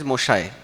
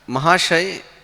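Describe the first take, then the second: First: The word is said in Bengali pronunciation. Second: The word is said in non-Bengali pronunciation.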